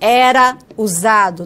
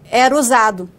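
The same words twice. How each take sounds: First: The final vowel of 'era' is fully pronounced. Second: The final vowel of 'era' is dropped and linked. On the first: "Não" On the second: "a gente produz como?"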